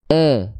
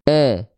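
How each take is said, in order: First: The vowel sounds like a flat, open e. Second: The vowel sounds like a flat, open e.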